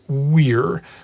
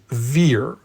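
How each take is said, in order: First: The word starts with a W sound. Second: The word starts with a V sound. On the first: The speaker calls it right. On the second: The speaker calls it wrong.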